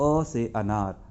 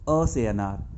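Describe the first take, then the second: The two takes are said the same way.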